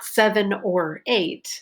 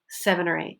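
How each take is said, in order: First: The word or is said fully and clearly. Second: The word or is reduced and weak. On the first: The speaker calls it wrong. "it's not" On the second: The speaker calls it right. "that conjunction is reduced"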